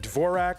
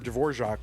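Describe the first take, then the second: First: It is not said like the composer's name. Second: It is said like the composer's name.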